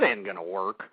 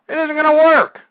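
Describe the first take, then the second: First: "it ain't gonna work" dropped much lower and softer; muttered. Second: "It isn't gonna work" much higher and louder, each word hammered; emphatic correction. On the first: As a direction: let "it ain't gonna work" sink under your breath. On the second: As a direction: repeat "It isn't gonna work" loudly, driving the point home. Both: Real, not acted.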